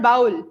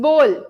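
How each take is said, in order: First: The vowel sounds like 'owl', not 'oh'. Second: The vowel sounds like 'oh', not 'owl'. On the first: The speaker calls it wrong. "आउल घुसा दिया बाउल में ... it's not bowl" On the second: The speaker calls it right. "it's bowl"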